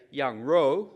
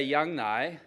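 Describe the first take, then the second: First: "yang rou" with Mandarin tones. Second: "yang nai" with Mandarin tones. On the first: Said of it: "which is meat". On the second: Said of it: "the perception is that it's goat's milk". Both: Shown as a demonstration.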